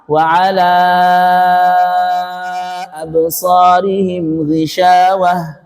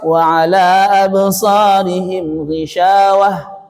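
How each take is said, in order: First: The long vowels are stretched out longer. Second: The long vowels are kept short. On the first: "Kalau kita jalur lama" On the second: "kalau dikasar"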